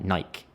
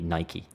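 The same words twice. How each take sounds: First: It is said the English way, ending in 'k'. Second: It is said the original way, ending in 'kee'.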